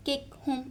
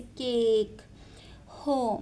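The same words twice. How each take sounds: First: केक and होम cut short, vowels not held. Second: केक and होम with drawn-out vowels; long vowel. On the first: Teacher showing how it is not said, short vowels. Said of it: "ऐसे तो नहीं बोलते इसको". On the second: Teacher showing how we lengthen these words, long vowels. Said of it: "थोड़ा सा long कर देते हैं". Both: Shown as a demonstration.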